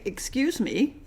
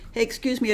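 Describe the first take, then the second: First: A cool, pointed "Excuse me". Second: Said in the usual way. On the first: Retold or imitated. Canadian warning someone who crossed the line, pointed. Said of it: "in this tone of voice". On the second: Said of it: "when you hear a Canadian not say".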